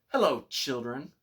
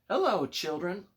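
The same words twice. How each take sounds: First: It is said in a plain, unsweet voice. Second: It is said in a sweet, gentle voice.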